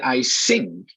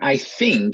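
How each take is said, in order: First: The word begins with an s sound. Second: The word begins with a th sound. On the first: The speaker calls it wrong. "I'm thinking of mispronunciation" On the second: The speaker calls it right. "Instead of I think"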